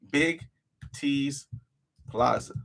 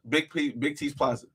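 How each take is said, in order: First: "Big", "T's", "Plaza" each set apart by a pause; carefully spacing out "Big T's Plaza" so it sticks; spelled out slowly. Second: Said in the usual way. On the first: Shown as a demonstration. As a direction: say "Big T's Plaza" one word at a time with gaps. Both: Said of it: "It's called".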